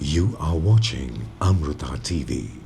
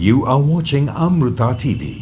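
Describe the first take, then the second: First: The voice is deep, low and calm. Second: The voice is bright, peppy and energetic. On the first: It suits a night-time broadcast. "വളരെ ബേസി ആയിട്ട്, അതായത് രാത്രി സമയത്ത് നമുക്ക് play ചെയ്യാൻ" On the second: It suits a morning show. "ഒരു peppy morning time morning show"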